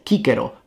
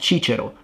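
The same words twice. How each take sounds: First: The first consonant is a hard k sound. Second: The first consonant is a soft sound. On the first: The speaker calls it right. "pronounced like a K" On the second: The speaker calls it wrong.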